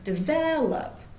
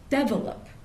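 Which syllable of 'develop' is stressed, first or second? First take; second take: second; first. First: The stress is on the second syllable. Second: The stress is on the first syllable. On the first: This is what listeners expect to hear. "expecting to hear develop" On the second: This is how some other dialects say it. "they'll often put the stress on the first syllable. So they'll say develop"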